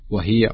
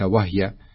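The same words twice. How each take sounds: First: The h carries an i vowel. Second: The h carries no vowel. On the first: The speaker calls it right. "يقرأها وهي" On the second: The speaker calls it wrong. "وليس وهي"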